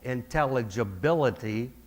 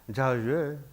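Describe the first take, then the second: First: The word is articulated fully, every syllable distinct. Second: The word is slurred, with syllables run together. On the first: The tongue moves through its full range. The speaker calls it right. "it's much clearer" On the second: The tongue does not move through its full range. The speaker calls it wrong. "can sound like intelligible if the tongue doesn't move to its full range"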